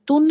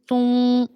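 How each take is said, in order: First: The final n is pronounced fully and clearly. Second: The final n is hidden in a nasal hum. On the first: The speaker calls it wrong. "तुन हमने नहीं करना" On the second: The speaker calls it right. "आवाज़ को हमने छुपाते हुए अदा करना है"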